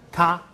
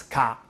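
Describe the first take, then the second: First: "Ka" pitched up, firmly; Si Xian tone. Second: "ka" set down in pitch; speaker's own accent. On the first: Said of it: "Okay, I pronounce ka". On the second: Teacher contrasts own accent for students, lower "ka". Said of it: "I pronounce ka". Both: Shown as a demonstration.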